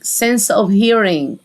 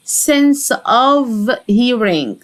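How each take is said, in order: First: Said in the usual way. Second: "sense of hearing" very slow, word by word; slow pronunciation demo. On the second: Shown as a demonstration. Teacher models phrase word by word.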